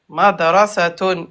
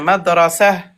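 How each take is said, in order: First: The word ends with a full -tun ending. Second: The word ends cut short with a soft -ah. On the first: The word is read within continuous speech. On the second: The word is read at a stop.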